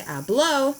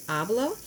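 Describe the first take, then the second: First: "habló" with the last syllable punched, ha-BLÓ; stress on final ó. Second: "hablo" stressed on the first syllable, HA-blo; plain unaccented hablo. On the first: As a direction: hit the end of "habló" higher and louder. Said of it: "with an accent". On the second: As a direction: say "hablo" with a light, unstressed final o. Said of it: "The accents are really important". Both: Shown as a demonstration.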